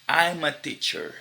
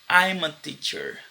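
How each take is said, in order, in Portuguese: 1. 'I am' é reduzido a uma sílaba. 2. 'I am' é reduzido a uma sílaba.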